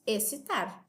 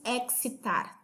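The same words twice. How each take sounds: First: The x is silent before the c. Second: The x is sounded before the c. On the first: The speaker calls it right. "nós dizemos excitar" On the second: The speaker calls it wrong. "Também não falamos excitar"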